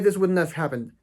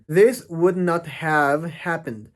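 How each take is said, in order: First: Would not is contracted to wouldn't. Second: Would not is said as two full words. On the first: The speaker calls it right. "La contracción que dijimos, wouldn't have" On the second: The speaker calls it wrong. "aquí no lo pronuncian de esa forma"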